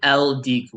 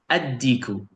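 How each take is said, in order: First: The article is said with a clear L sound. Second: The L is dropped and the D is doubled. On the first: The speaker calls it wrong. "So you do not say el-diku. No" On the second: The speaker calls it right. "It's like I'm erasing this, just jumping straight to that one"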